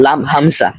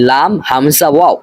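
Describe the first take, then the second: First: "লাম হামজা" ending cleanly on hamza; correct pronunciation. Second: "লাম হামজা" with an extra "ওয়াও" tacked on; name the silent seat too: "লাম হামজা ওয়াও"; common mispronunciation. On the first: Teacher correcting learners, "লাম হামজা" without the extra letter. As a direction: stop after "হামজা", with no waw named. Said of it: "বরং উচ্চারণটা হবে". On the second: Teacher showing a common error, adding "ওয়াও" after "হামজা". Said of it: "এখানে আমরা অনেকে ভুল করে থাকি". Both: Shown as a demonstration.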